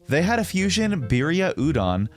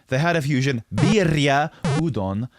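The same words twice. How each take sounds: First: Foreign words stay within English pronunciation habits. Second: Foreign words switch to their native-language accents. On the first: The speaker calls it right. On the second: The speaker calls it wrong. "changing your accent and pronunciation rules word by word throughout a sentence"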